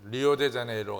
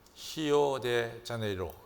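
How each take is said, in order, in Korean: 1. 이 이름은 R 소리로 시작합니다. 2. 이 이름은 H 소리로 시작합니다.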